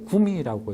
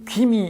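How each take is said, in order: First: The first syllable is pronounced 'gu'. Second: The first syllable is pronounced 'gwi'. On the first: The speaker calls it right. "구미라고 읽고" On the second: The speaker calls it wrong. "귀미 읽지 않고"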